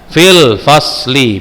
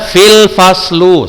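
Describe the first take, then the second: First: The last word ends with an 'ee' vowel. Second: The last word ends with an 'oo' vowel. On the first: The speaker calls it right. "tapi dibaca fil fasli" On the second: The speaker calls it wrong. "tidak boleh lagi dibaca fil faslu, salah"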